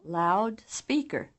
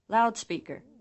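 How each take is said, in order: First: The second syllable is almost as loud as the first. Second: The first syllable is much louder than the second. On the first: "the right column items louder and clearer" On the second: "the left column items"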